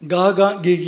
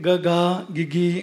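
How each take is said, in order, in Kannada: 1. ದೀರ್ಘ ಸ್ವರ ಮೊದಲು, ಆಮೇಲೆ ಹ್ರಸ್ವ ಸ್ವರ. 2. ಹ್ರಸ್ವ ಸ್ವರ ಮೊದಲು, ಆಮೇಲೆ ದೀರ್ಘ ಸ್ವರ. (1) "ಗಾಗ ಗೀಗಿ ಅಲ್ಲ. ನಾವು ಚಿಕ್ಕವರಿದ್ದಾಗ ಗಾಗ ಗೀಗಿ ಅಂತ ಹೇಳ್ತಿದ್ವು" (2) "ಗ ಹ್ರಸ್ವ ಗಾ ದೀರ್ಘ"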